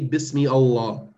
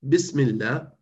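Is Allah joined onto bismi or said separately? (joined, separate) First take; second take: separate; joined. First: Allah is said separately after a full bismi. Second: Bismi and Allah run together as one word. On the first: The speaker calls it wrong. "Don't say Bismi Allah" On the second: The speaker calls it right.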